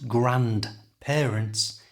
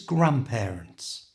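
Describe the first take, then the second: First: The D in the middle is pronounced. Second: The D in the middle is silent. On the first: The speaker calls it wrong. "A common mistake with this word is to try and pronounce the D" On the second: The speaker calls it right. "it stays silent when we say it"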